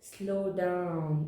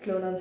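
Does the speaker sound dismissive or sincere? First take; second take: sincere; dismissive. First: It is said earnestly, with sincerity. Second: It is said hastily, without sincerity. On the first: The words are truly meant. The speaker calls it right. "and really mean it" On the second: The words are said without meaning them. The speaker calls it wrong. "not like that"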